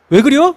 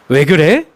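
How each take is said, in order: First: It is spoken in a Chungcheong regional accent. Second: It is spoken in standard Seoul Korean. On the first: This is how the speaker talked as a child. "제가 충청도 사투리를 쓰고 있었더라고요" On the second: This is how the speaker talks now after correcting it. "근데 지금 제가 무슨 일 있으면 그래? 라고 합니다"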